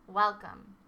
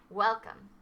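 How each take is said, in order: The two takes are said the same way.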